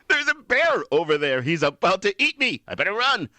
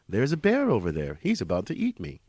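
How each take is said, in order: First: It is said fearfully, full of emotion. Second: It is said calmly, without emotion.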